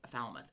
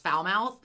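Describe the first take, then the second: First: "Falmouth" said as FAL-muth; "Falmouth" with a short a and swallowed ending; correct pronunciation. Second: "Falmouth" said as fowl-mouth; "Falmouth" rhyming its end with south; mispronounced as spelled. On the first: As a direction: reduce the end of "Falmouth" to a weak muth. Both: Shown as a demonstration. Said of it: "I knew it was not pronounced Falmouth".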